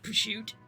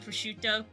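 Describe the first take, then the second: First: Half of the word's sounds are dropped. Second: The word is said with its usual sounds. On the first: Some people in one region say it this way. The speaker calls it wrong. "they just like don't say half of the word" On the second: This is how it is meant to be said. The speaker calls it right. "I think it's meant to be prosciutto"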